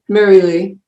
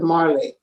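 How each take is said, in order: First: The name is said with three syllables. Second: The name is said with two syllables. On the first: The speaker calls it right. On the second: The speaker calls it wrong.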